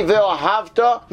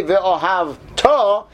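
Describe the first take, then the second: First: "ve'ohavta" with early stress, slow and high; "ve'ohavta" said slowly with the accent early, meaning past; stress on the first part. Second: "ve'ohavta" stretched slowly with the accent on the last syllable; "ve'ohavta" drawn out, landing on the end; stress at the end. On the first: Teacher showing the class past-tense stress, slow and deliberate. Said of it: "the accent of the word is the difference". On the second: Teacher showing the class future-tense stress, slow and drawn out. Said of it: "put the accent at the end of the word". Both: Shown as a demonstration.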